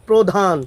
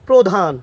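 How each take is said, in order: Both takes have the same delivery.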